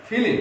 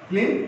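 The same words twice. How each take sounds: First: ফিলিং said "filim", in two syllables; inserted middle vowel. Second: Said in the usual way. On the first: Shown as a demonstration. Teacher showing students the common spoken form, ফিলিং as filim. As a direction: split the l-m cluster with an i, ফিলিং as filim. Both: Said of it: "এখানে আমরা অনেক সময় বলি".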